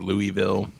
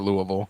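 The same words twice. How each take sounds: First: Every syllable of the name is said fully. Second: The name is said quickly with syllables reduced. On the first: This is how the name is properly said. "It's probably really Louisville" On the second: This is how people there say it. "we just say Louisville"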